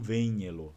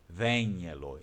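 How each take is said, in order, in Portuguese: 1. A vogal é nasalizada. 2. A vogal é aberta, não nasal. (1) "e não" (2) "o outro sim é aberto"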